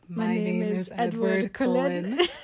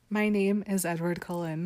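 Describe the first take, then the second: First: It is said in a put-on imitation accent. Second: It is said in the speaker's natural voice.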